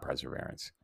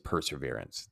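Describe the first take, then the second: First: The first syllable is said as 'pre'. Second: The first syllable is said as 'per'. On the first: The prefix means before. The speaker calls it wrong. "It's not perseverance" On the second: The prefix means through. The speaker calls it right. "It's perseverance"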